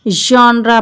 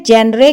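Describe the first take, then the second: First: जॉनरा with open "aa", "jaanra"; correct pronunciation. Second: जेनरे read as spelled, "jenre"; wrong pronunciation. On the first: Teacher modelling जॉनरा for the class. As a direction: say जॉनरा with a broad first vowel. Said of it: "क्या पढ़ेंगे?". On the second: Teacher showing the mistaken जेनरे. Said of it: "इसको हम जेनरे नहीं". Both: Shown as a demonstration.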